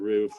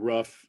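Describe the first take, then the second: First: The word has a standard-accent vowel. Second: The word has a Chicago-accent vowel. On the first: "instead of" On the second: "with the Chicago accent"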